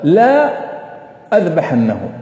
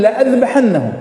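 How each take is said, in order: First: The first vowel is long, a separate word la. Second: The first vowel is short, joined to the verb. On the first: It says the opposite: I will not slaughter him. The speaker calls it wrong. "لو نقرأها كما هي مكتوبة لا أذبحنه، يعني بالعكس" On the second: It says I will surely slaughter him. The speaker calls it right. "والآية تقول لأذبحنه"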